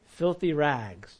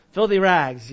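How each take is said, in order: First: Said in the usual way. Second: Louder, laughing through the words; laughing repeat. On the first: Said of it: "All of our works are like what?". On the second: Real, not acted. Preacher amused by the phrase, laughing and louder. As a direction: laugh as you say it again.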